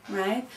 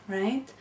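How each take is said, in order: Both takes have the same delivery.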